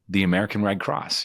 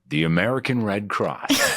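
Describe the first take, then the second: First: It sounds warm, relaxed and smiling. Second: It sounds like a formal, booming announcer. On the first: The speaker calls it right. "put a smile on your voice, like just the American Red Cross" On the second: The speaker calls it wrong. "not the American Red Cross"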